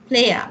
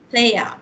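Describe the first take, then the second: No difference in how they are said.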